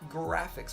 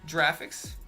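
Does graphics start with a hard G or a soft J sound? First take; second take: hard G; soft J. First: It starts with a hard G sound. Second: It starts with a soft J sound. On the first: The speaker calls it right. "It's graphics with a G. Gaga" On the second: The speaker calls it wrong. "Do you pronounce graphics Graphics?"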